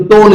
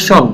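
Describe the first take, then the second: First: টোন with a hard t sound at the start; spelling-style টোন for the -tion ending; TION read as টোন. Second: Sh sound in শোন for the -tion ending; TION pronounced শোন. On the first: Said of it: "এটা কিন্তু টোন উচ্চারণ হবে". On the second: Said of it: "এটা উচ্চারণ হবে শোন". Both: Shown as a demonstration.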